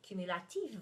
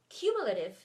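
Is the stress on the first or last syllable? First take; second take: last; first. First: The stress is on the last syllable. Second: The stress is on the first syllable. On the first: "stressed at the end of the word" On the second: "stressed at the beginning of the word"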